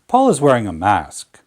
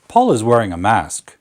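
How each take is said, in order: First: The pitch falls at the end. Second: The pitch falls at the end.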